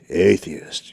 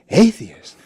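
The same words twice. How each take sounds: First: The word sounds scornful and disapproving. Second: The word sounds warm and enthusiastic. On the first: Being an atheist is something contemptible. The speaker calls it wrong. "you can hear the difference" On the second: Being an atheist is something exciting. The speaker calls it right. "like it's thrilling to be an atheist"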